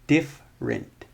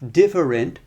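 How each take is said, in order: First: The word is said with two syllables. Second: The word is said with three syllables. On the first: "if we drop that" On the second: "Three syllables"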